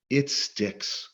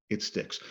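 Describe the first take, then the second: First: Said in the usual way. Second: Whispered echo. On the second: Real, not acted. Speaker to audience, echoing the point in a whisper. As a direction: repeat "It sticks." in a soft unvoiced whisper. Repeated line, echoed in a whisper.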